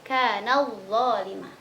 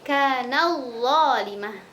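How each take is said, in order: First: The t merges into the following consonant. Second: The same.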